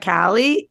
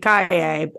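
First: The name is pronounced the English way. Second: The name is pronounced the Spanish way. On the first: This is how most people say the name. "everybody keeps calling her Sasha Calle" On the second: This is the proper pronunciation of the name. "if we're saying it properly, and if, like, in terms of if it's a Spanish name"

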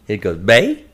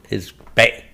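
First: The tone rises sharply upward. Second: The tone is low and cut short. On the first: "if it has a line that goes up" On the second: "if they have a dot underneath it"

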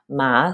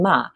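First: It is said with the second tone. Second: It is said with the fourth tone. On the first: "second tone" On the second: "and then ma"

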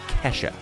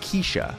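First: The first vowel sounds like 'eh'. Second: The first vowel sounds like 'ay'. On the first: The speaker calls it right. "in fact, it's Kesha" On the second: The speaker calls it wrong. "I pronounced the performing artists as [name]"

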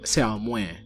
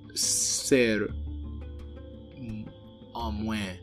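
First: The vowel is an open ah sound. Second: The vowel is not an open ah sound. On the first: This is the traditional Creole form. The speaker calls it right. "typically in Creole is supposed to be ah" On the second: The speaker is moving closer to French. The speaker calls it wrong. "people might be tempted to say for sister"

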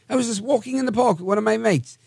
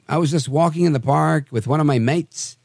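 First: It is read in a put-on British accent. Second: It is read in the speaker's normal accent.

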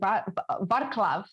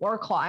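First: The name begins with a V sound. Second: The name begins with a W sound. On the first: The speaker calls it right. "oh, no, you're going to Barclaw" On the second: The speaker calls it wrong. "I was saying, oh, yeah, I'm going to Warclaw"

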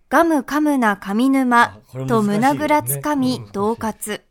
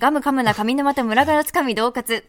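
First: The phrase is spoken slowly and carefully. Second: The phrase is spoken quickly as a tongue twister. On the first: "ゆっくり言葉" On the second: "ではこれを早口でいきます。"

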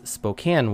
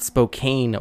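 First: It is said the local way. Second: It is said the non-local way. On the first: The speaker calls it right. "It's Spokane, Washington, right? Say it as you were if you lived there" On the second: The speaker calls it wrong. "it's not Spokane"

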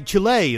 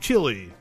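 First: It is pronounced the local way. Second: It is pronounced the non-local way. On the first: "I feel the need to say Chile" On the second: "instead of Chile"

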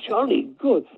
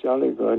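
First: It is said in a warm, eager tone. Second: It is said in a flat, uninterested tone. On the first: The listener is now impressed by the group. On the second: The listener does not care about the group.

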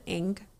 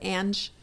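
First: The name ends with a hard g sound. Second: The name ends with a soft j sound. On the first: The speaker calls it wrong. "they said Ang" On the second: The speaker calls it right. "Instead of Ange"

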